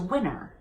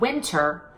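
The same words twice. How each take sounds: First: The T after the N is dropped. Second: The T after the N is clearly pronounced. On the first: The speaker calls it wrong. "and lose the T, it turns into winter" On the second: The speaker calls it right. "when you take a word like winter"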